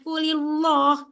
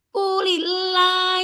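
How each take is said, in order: First: The l of Allah is heavy and thick. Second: The l of Allah is light and thin. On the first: The speaker calls it wrong. "pada dibaca kulillah" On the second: The speaker calls it right. "Harusnya kan kulillah"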